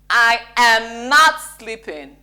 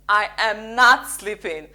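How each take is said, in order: First: It sounds strong and emphatic. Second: The same.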